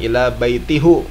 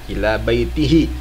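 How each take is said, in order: First: The vowel after the h is 'u'. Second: The vowel after the h is 'i'. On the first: The speaker calls it wrong. "bukan ila baitihu. Salah" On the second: The speaker calls it right. "Jadi dibacanya ila baitihi"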